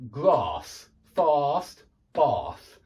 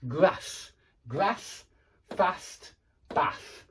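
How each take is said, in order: First: Southern British long ah in "grass, fast, bath"; slow, separated BBC English words; received pronunciation. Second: Short a in "grass, fast, bath", northern English style; northern UK pronunciation. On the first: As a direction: draw out the ah as in southern England. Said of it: "what received pronunciation, B B C English". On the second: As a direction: separate northern-accented sample words. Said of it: "in the north of the U K". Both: Shown as a demonstration.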